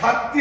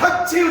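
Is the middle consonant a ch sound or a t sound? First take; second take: t sound; ch sound. First: The middle consonant is a plain t sound. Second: The middle consonant is a ch sound. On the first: The speaker calls it wrong. "খাত্তি হবে না" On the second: The speaker calls it right. "খাচ্ছি উচ্চারণ হবে"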